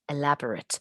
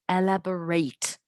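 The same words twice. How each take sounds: First: It is said in the adjective pronunciation. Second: It is said in the verb pronunciation. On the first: It describes something detailed. "When you use elaborate as an adjective ... we pronounce it as elaborate" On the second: It asks for more detail. "But if you want to use it as a verb"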